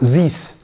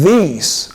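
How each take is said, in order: First: The first consonant sounds like z. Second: The first consonant is a soft th. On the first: The speaker calls it wrong. "not these" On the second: The speaker calls it right.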